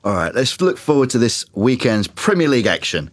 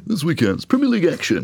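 First: Light telly announcer read; TV presenter voice. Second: Hammed-up high telly announcer; TV presenter voice. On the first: Acted. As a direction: read it like a sports link. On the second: Shown as a demonstration. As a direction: overdo the sports presenter link. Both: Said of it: "I sound like some geezer on the TV".

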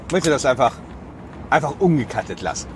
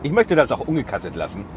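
First: Said in the usual way. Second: Just after a sip; while sipping a drink. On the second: Real, not acted. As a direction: talk right after drinking. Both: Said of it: "ich muss mal einen Schluck trinken".

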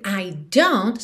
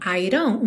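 First: "I don't" with a clear D and T; full D. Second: "I don't" reduced to "I-ron"; tapped D. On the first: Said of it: "é muito comum esse I don't soar I don't". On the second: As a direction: flap the D in "I don't". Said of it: "um rarará já". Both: Shown as a demonstration.

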